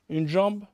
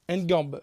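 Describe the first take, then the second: First: The word begins with a soft J sound. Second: The word begins with a hard G sound.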